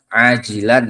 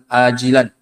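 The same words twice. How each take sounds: First: The word begins with a throaty ain sound. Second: The word begins with a light glottal stop. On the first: The healing is asked for right away. The speaker calls it right. "Mintanya disegerakan sembuhnya" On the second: The healing is asked for later. The speaker calls it wrong. "ini jangan salah nanti kalau berdoa"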